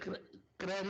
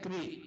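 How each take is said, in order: First: The syllable ends in an 'ay' vowel. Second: The syllable ends in a long 'ee' vowel. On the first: The speaker calls it wrong. "क्रय नहीं" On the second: The speaker calls it right. "ई की मात्रा"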